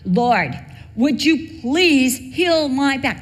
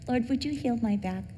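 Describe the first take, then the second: First: It is said strongly and intensely. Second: It is said calmly and softly.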